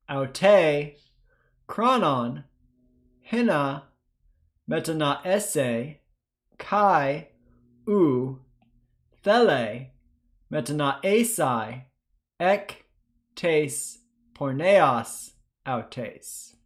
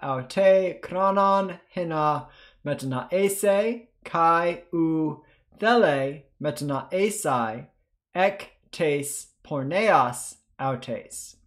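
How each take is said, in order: First: It is read at a slower pace. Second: It is read at a faster pace.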